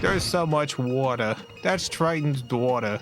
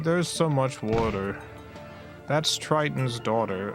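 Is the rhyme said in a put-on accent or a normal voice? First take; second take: put-on accent; normal voice. First: It is said in a put-on accent. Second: It is said in the speaker's normal accent.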